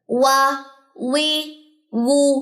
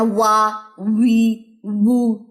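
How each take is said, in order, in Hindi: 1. अक्षर बिना साँस के, पूरी तरह स्वर के साथ बोले जाते हैं। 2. अक्षर साँस की हल्की आवाज़ के साथ बोले जाते हैं। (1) "जहर है इसमें, सांस बंद करना है, आवाज बुलंद करनी है" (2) "अब इसको कैसे नहीं पढ़ना"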